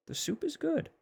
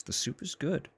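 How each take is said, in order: First: Extremely high falsetto squeak. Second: Squeaky high-pitched voice; high silly voice. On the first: Repeats it even higher. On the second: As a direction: say it in a cute high voice. Silly voice praising the soup. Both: Pretend.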